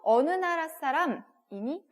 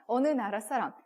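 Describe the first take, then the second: First: 어느 나라 사람이니 said slowly, 나라 stressed with a rising end; slow, careful 어느 나라 사람이니 with 나라 stressed; slow question. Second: Said in the usual way. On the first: Shown as a demonstration. Teacher modelling the Korean question for students, slowly. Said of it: "우리도". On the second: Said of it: "라고 질문을 하지만".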